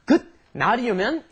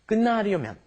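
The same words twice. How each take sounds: First: The first syllable ends in a T sound. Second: The first syllable ends in an N sound. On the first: The speaker calls it wrong. "It's not" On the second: The speaker calls it right.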